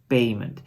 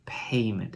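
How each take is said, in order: First: The p is said without a puff of air. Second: The p is followed by a puff of air. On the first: The speaker calls it wrong. "and not payment" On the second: The speaker calls it right. "the English say payment"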